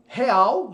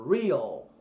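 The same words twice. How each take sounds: First: Said in the usual way. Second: "real" with a curled R, like a caipira R; "real" with a retroflex R and stress on RE; "real" said the English way, R curled back. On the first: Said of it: "em português". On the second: Shown as a demonstration. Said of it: "som do R do caipira".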